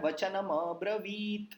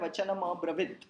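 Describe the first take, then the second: First: The vowel in 'vi' is long. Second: The vowel in 'vi' is short. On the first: The word means 'said'. The speaker calls it right. "वी दीर्घ है" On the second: The word means nothing. The speaker calls it wrong. "आपने शब्द ही गलत बोला है"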